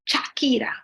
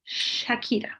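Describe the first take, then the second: First: The name begins with a ch sound. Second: The name begins with a sh sound. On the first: The speaker calls it wrong. "She is not [name]" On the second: The speaker calls it right. "She is [name]"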